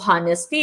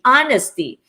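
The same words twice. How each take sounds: First: The H at the start is pronounced. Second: The H at the start is silent. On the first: The speaker calls it wrong. "hindi po honesty" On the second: The speaker calls it right. "That should be honesty"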